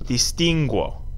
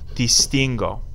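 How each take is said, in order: First: The g is followed by a w sound. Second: The g is hard with no w sound. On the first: The speaker calls it wrong. "we don't want these U's in them" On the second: The speaker calls it right. "Hard G sound"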